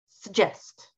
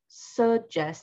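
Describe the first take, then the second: First: The stress is on the second syllable. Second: The stress is on the first syllable. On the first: The speaker calls it right. "we want to stress the second syllable" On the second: The speaker calls it wrong. "instead of suggest"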